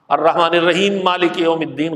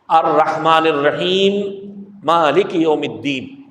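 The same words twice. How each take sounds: First: The words run on with no pause after الرحیم. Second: There is a stop after الرحیم before مالک.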